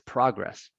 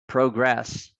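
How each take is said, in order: First: The stress is on the first syllable. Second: The stress is on the second syllable. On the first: It is used as a noun. "as a noun" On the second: It is used as a verb. "the O is long as a verb"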